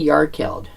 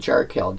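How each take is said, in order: First: The name begins with a Y sound. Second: The name begins with an English J sound. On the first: "I never say Yarkeld" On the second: "with the J that you're used to in English"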